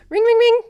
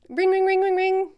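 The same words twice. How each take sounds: First: Much higher, louder ring ring; higher phone ring. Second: Sung-out higher ring ring; phone ring imitation. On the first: Pretend. Coach rings the trainee again, higher and louder. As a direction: ring like an impatient phone, pitched up. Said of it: "I'm gonna keep getting higher and higher". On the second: Coach rings the trainee to start the call, higher. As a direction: mimic a phone ringing, louder and higher.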